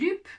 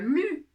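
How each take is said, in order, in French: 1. La voyelle est u et un p final se prononce. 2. La voyelle est un u antérieur arrondi. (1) "ni lup" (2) "Je ne dis pas lu"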